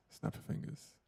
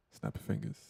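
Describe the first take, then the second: First: Whispered test line, much softer; whispered mic check. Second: Said in the usual way. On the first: Shown as a demonstration. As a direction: breathe it with no voice to test the gate. Mic test, normal then whispered.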